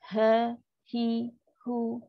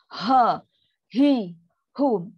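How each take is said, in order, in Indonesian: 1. Suku katanya diucapkan dengan lembut dan ringan. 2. Suku katanya didorong keluar dengan berat dan kuat. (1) "Sedangkan dia lah ringan" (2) "Itu dah terlampau berat dan susah nak buat"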